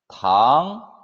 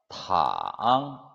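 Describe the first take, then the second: First: The pitch rises from mid to high. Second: The pitch dips very low, then rises. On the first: It means sugar or candy. "이성" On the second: It means to lie down. "삼성"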